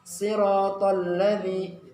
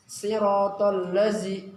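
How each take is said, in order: First: The last word has a d-like consonant. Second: The last word has a z-like consonant. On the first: The speaker calls it right. "huruf dal. Jadi ujung lidah menyentuh ujung gigi seri bagian atas" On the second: The speaker calls it wrong. "maka nanti yang keluar adalah huruf zai"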